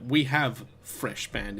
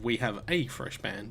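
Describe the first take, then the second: First: The article before 'fresh' is left out. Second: The article before 'fresh' is clearly spoken. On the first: The speaker calls it wrong. "people don't say a in this game" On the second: The speaker calls it right. "instead of"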